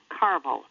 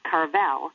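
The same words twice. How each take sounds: First: The stress is on the first syllable. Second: The stress is on the second syllable. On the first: The speaker calls it right. "with the accent on the first syllable" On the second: The speaker calls it wrong. "not Carvel, as most people think"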